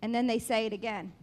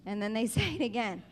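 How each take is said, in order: Both takes have the same delivery.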